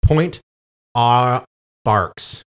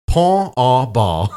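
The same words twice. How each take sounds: First: "Point aux Barques" word by word, hard English consonants; anglicised pronunciation. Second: Slow, drawn-out French "Pont au Bal"; mock French pronunciation. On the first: Host sounding out a French place name, anglicised pronunciation. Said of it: "this is how it sounds". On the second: Host guessing at the French name for fun, mock French pronunciation. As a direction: stretch "Pont au Bal" in French style, final consonants softened away. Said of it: "that's probably how it is in French". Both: Shown as a demonstration.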